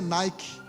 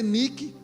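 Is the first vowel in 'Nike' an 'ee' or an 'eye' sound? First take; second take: eye; ee. First: The first vowel is said as 'eye'. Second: The first vowel is read as spelled, 'ee'. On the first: This is how the word is actually spoken. "se pronuncia Nike" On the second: This is how the word is written. "Se lê Nike"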